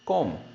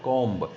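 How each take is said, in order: First: The final B sound is silent. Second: The final B sound is pronounced. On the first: The speaker calls it right. "it's a comb" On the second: The speaker calls it wrong. "not a comb"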